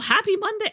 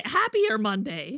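First: Much higher, cheery hello; bright high greeting. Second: Said in the usual way. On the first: Real, not acted. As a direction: sing out happy Monday. Sings greeting.

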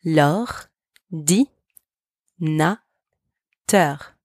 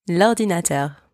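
First: Very slow, syllable by syllable; slow teaching model of L'ordinateur; slow syllable demo. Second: Said in the usual way. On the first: Shown as a demonstration. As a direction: stretch L'ordinateur out, sound by sound. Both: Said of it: "Repeat after me".

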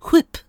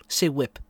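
First: "whip" begun with a strong puffed H; emphasised H. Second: Said in the usual way. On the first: Acted. Asked to say whip in the sketch, H heavily overdone. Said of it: "you're putting a lot of emphasis on the H". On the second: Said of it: "emphasis on the H".

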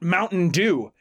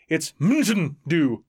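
First: Said in the usual way. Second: Mountain Dew slow and clipped, as in M T N; pronounced MTN. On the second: Shown as a demonstration. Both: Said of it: "it's M T N".

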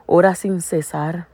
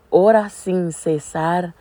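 First: Slow, weighty scripture quote; slow emphatic reading. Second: Very slow, every word stressed; slower emphatic repeat. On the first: Preacher quoting scripture to the congregation, slow and emphatic. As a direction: let each word land slowly. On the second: Preacher repeating the verse for the listeners, very slow. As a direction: drive the verse home slowly. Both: Real, not acted. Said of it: "en un versículo dice".

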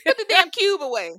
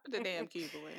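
First: High, shouted mock order; loud punchline. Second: Low, soft mock order; quiet punchline repeat. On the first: Grandma corrected to a cube, loud mock order. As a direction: shout it high through the group's laughter. Answering grandma's joke, everyone laughing. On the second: Repeating the cube joke after laughter, low and quiet.

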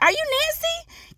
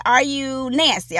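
First: Much higher, slow, sing-song question. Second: Said in the usual way. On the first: Retold or imitated. Host checking a guest's name, high and slow. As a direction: ask it lilting and hopeful. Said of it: "I was like". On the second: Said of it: "I'm gonna say".

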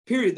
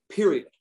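First: The second "Period." said higher, with a falling final tune; emphatic repeat. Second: Said in the usual way. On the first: Shown as a demonstration. Insisting to the hosts: "Period." pitched higher and final. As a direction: hammer home "Period." as a final word.

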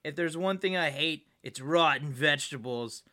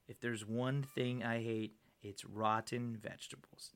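First: Said in the usual way. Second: Slow, low, quiet tough-guy delivery; deadpan, softly menacing movie hero; action-hero one-liner. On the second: Acted. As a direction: drop low and drag out the tagline. Repeats line as action-hero tagline.

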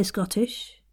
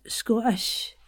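First: Said in the usual way. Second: "Scottish" with a longer O, Scots style; Scottish-accented "Sco'ish". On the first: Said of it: "in my neutral kind of accent". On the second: Shown as a demonstration. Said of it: "remember the O it changes".

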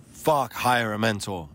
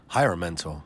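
First: "Fuck, hire a mentor" pushed higher with a curse up front; emphatic. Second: Said in the usual way. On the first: Shown as a demonstration. Urging listeners to hire a mentor, emphatic. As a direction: hit "Fuck" hard, then drive home "hire a mentor". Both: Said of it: "I cannot say that with enough emphasis".

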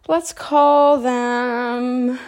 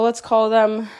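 First: Very slow, stretched stalling; drawn out. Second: Said in the usual way. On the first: Pretend. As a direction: drag it out to build suspense. Stalling before naming someone.

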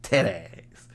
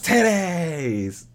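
First: "Titties" as tet-tas, dropped low and mumbled; a low, mumbled "Titties" with the odd vowels; titties again. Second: "Titties" drawn out as tit-tays, with a goofy lilt; silly titties. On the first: Murmuring the word once more after the spelling, lower. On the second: Repeating his own silly "Titties" for the listener, mock drawl. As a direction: say "Titties" like T I T T A Y S, hammed up. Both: Shown as a demonstration. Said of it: "T I T T A Y S".

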